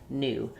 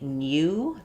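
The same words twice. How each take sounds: First: No y sound comes before the oo. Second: A y sound comes before the oo. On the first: "In American English, we have dropped that y" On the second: "In British English, they do say new. They have the y sound"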